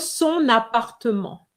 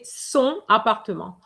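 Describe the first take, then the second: First: Son links into appartement with an n sound. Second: Son and appartement are said without linking. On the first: The speaker calls it right. "After son, you need to have a liaison. It's compulsory" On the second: The speaker calls it wrong. "So you can't say"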